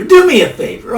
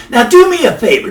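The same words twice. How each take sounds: First: "Do" pitched much higher and leaned on; emphatic repeat. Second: Said in the usual way. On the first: Real, not acted. Host repeating his plea to viewers, "Do" jumping high. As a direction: push the word "Do" up high so the repeated plea lands.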